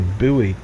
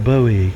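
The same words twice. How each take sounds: First: It is said with an American pronunciation. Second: It is said with a non-American pronunciation. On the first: This is how people in the States say it. "we in the States refer to it as a buoy" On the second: This is how the commenter says it should be said. "It's called a buoy"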